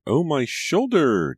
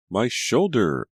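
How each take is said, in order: First: Very high, loud and slow wailing shriek; drawn-out shriek. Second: Loud, higher shriek of pain. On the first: Scalded daughter at dinner, long loud high shriek. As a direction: stretch the pain into a long howl. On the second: Scalded daughter at dinner, loud pained shriek. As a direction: cry out in sudden burning pain. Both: A narrator's reading. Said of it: "Julia shrieked".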